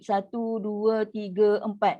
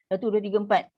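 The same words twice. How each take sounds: First: The four counts are said slowly and drawn out. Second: The four counts are said quickly. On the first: "Kalau tahqiq" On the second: "empat harakat untuk hadar lagi cepat"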